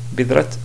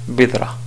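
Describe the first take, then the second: First: The word ends on a bare t sound. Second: The word ends on a vowel, no t. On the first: The speaker calls it wrong. "vraiment, c'est pas correct" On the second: The speaker calls it right. "si on voulait appliquer les règles de l'arrêt"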